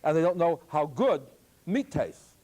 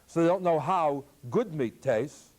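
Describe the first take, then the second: First: Good is grouped with how, pause after good. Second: Good is grouped with meat, pause before good.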